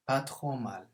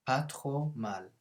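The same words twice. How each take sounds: First: Said in the usual way. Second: «Pas trop mal» said very slowly for learners; slow model. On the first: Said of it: "model phrase at normal pace". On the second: Shown as a demonstration. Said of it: "model phrase said slowly".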